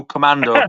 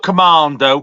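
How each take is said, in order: First: "Commando" with a short "a", as "com-MAN-do"; crisp short middle vowel in "Commando"; corrective pronunciation. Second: "Commando" with a long "ah", as "com-MAHN-do"; slow "Commando" with long open "a"; mock-wrong pronunciation. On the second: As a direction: draw out the middle of "Commando" as a posh-style "mahn". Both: Shown as a demonstration. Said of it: "No, not Commando".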